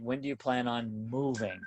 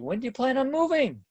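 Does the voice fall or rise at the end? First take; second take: fall; rise. First: The pitch falls at the end. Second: The pitch rises at the end. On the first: The speaker sounds confident and leading. The speaker calls it right. "put my finger in my belly button and say" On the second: The speaker sounds unsure and lacking confidence. The speaker calls it wrong. "do you hear the upswing in my voice?"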